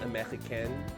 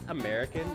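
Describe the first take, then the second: First: It is pronounced with a French sound. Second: It is pronounced with an English sound. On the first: "not American" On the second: "it's pronounced American"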